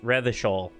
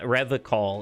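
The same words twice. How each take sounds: First: The name is said without the alcohol-like ending. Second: The name is said to rhyme with alcohol. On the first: The speaker calls it right. "it's Revachol" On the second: The speaker calls it wrong. "Why did he pronounce it like alcohol? It's not Revachol"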